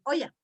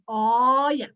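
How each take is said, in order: First: Said in the usual way. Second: Olla with a long, wide-open O; American open O. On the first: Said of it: "is not going to say olla". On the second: Shown as a demonstration. Teacher showing an American's version, long open O in olla. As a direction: stretch the first O of olla with an open mouth. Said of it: "He's going to say olla".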